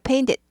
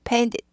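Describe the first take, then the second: First: The middle t sound is softened and weakened. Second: The same.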